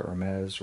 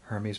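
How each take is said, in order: First: Hermes as er-MEZ, silent H; alternative pronunciation. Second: Hermes as HER-meez, H sounded; English pronunciation. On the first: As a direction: drop the H in Hermes, end it "ez". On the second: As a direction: say Hermes with an H and an "eez" ending. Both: Shown as a demonstration. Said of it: "however you wanna say it".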